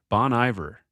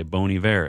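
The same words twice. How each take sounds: First: Bon Iver with "Iver" said EYE-ver, the English way; anglicized name. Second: Bon Iver with "Iver" said ee-VAIR, the French way; French pronunciation. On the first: Confused American reader saying Bon Iver as EYE-ver. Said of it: "someone corrects them". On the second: Someone correcting the reader with French ee-VAIR. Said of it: "They say". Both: Retold or imitated.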